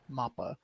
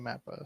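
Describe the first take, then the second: First: It is said with Japanese-style syllables. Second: It is said with English-style vowels and stress. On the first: This is how it would be said in Japan. "if Japan was going to pronounce it as written" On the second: This is how most Western speakers say it. "most people in the West say"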